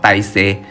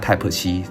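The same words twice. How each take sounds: First: It is said with a Vietnamese pronunciation. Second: It is said with a Taiwanese pronunciation. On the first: "在这里他们叫 Type C" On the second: "我们在台湾叫 Type C"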